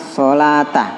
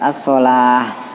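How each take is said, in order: First: The word ends with a full 'ta' syllable. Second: The word ends with a soft 'h' sound. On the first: The speaker calls it wrong. "nggak boleh dia baca berhentinya as-sholata" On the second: The speaker calls it right. "hanya diwakafkan taknya"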